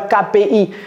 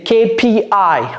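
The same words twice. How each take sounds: First: The letters are named with French letter sounds. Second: The letters are named with English letter sounds. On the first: The speaker calls it wrong. "C'est pas K P I" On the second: The speaker calls it right. "c'est K P I en anglais"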